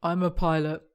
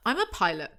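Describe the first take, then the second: First: Understated, modest delivery; not smug. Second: Lightly smug boast; a touch of showing off. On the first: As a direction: say it without any boast. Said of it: "He doesn't say it in a smug way". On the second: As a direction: say it a little pleased with yourself. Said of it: "He doesn't say it in a smug way. Oh, okay". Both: Acted.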